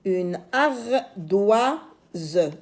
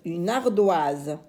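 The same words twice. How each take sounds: First: Ardoise slow, Z held long; stretched z sound. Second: Said in the usual way. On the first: Shown as a demonstration. Teacher models the word slowly. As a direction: hold the Z in ardoise.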